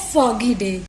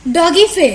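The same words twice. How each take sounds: First: Said in the usual way. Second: डॉगी फे as a deliberate swapped-sound slip; spoonerism slip. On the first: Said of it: "हमने जल्दी जल्दी में बोला था फॉगी डे". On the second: Shown as a demonstration. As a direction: say डॉगी फे loud, with the f and d of foggy day swapped. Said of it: "हमने बोल दिया डॉगी फे".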